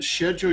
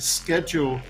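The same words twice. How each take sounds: First: Schedule is said in a non-North American way. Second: Schedule is said in the North American way. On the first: The speaker calls it wrong. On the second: The speaker calls it right.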